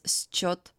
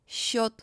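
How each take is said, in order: First: It starts with an s followed by ch. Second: It starts with one long soft sh sound. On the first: The speaker calls it wrong. "We don't read these words as счет" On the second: The speaker calls it right. "pronounced as the soft sound Sh"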